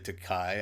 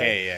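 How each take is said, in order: First: The last syllable rhymes with 'high'. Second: The last syllable rhymes with 'gay'. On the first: The speaker calls it wrong. "people would say Takai" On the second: The speaker calls it right.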